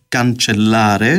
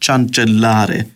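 First: The word begins with a k sound. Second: The word begins with a ch sound. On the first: The speaker calls it right. "λαλούν καντσελάρε" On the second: The speaker calls it wrong. "και όχι τσαντσελάρε"

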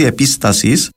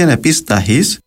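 First: An s sound comes before the last vowel. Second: An h sound comes before the last vowel.

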